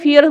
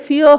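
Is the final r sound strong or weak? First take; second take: strong; weak. First: The r is strong after a single vowel. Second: The r is weak after a gliding vowel. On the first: "Indian जो है फियर बोलते हैं" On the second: "लेकिन फियर होता है, यानी आर पे हम इतना स्ट्रेस नहीं"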